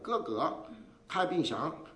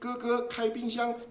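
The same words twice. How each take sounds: First: The syllables are said with shifting, changed pitches. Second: Every syllable is said on one high level pitch. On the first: It comes across as Shandong dialect instead. The speaker calls it wrong. "他一变了就不一样。那就马上就变了山东话了" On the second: It is standard Mandarin with all first tones. The speaker calls it right. "都是同样的音调的"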